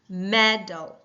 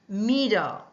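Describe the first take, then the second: First: The first vowel is short, like 'meh'. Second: The first vowel is long, like 'me'. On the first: The speaker calls it right. "Does that not sound a lot better?" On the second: The speaker calls it wrong. "we will hear me instead of meh"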